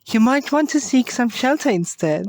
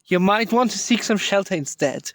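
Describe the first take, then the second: First: It is said in a bored, girly voice. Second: It is said in a rough, aggressive voice. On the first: The speaker calls it wrong. "bored girly voice" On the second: The speaker calls it right. "not bored, but even aggressive"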